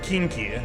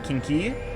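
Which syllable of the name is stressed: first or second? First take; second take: first; second. First: The stress is on the first syllable. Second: The stress is on the second syllable.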